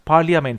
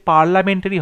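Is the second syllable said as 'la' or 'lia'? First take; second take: lia; la. First: The second syllable is a 'lia' sound. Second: The second syllable is a plain 'la' sound. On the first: The speaker calls it right. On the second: The speaker calls it wrong.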